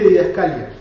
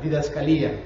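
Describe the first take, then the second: First: The stress falls before the i syllable. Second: The stress falls on the i syllable. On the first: "yo siempre dije didascalia" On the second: "con acento en la i"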